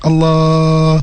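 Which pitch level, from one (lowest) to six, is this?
four. Said at the fourth pitch level. "Tahap keempat"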